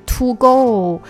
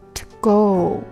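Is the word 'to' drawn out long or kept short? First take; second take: long; short. First: The word 'to' is drawn out long. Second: The word 'to' is clipped very short. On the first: The speaker calls it wrong. "不是to go，那你就变长了" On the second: The speaker calls it right. "非常的短t"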